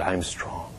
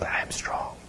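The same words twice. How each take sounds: First: Very soft, low, half-voiced whisper. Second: Breath-only, barely audible whisper; really weak whisper. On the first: Sick woman obeying the minister, feeble whisper. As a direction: imitate a feeble repeat, hushed. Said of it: "And she whispered". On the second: Retold or imitated. Sick woman trying to declare strength, very weak whisper. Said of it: "but really weak".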